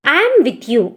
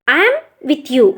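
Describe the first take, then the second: First: Said in the usual way. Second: I am with you. repeated slowly, word by word; slow teaching repeat. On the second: Shown as a demonstration. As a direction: say it again slowly for students to copy. (నెమ్మదిగా మళ్ళీ చెప్పడం)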